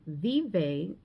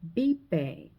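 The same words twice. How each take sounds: First: It starts with an English V sound. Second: It starts with a B-like sound. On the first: The speaker calls it wrong. "instead of saying vive, like you would read" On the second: The speaker calls it right. "you would say vive"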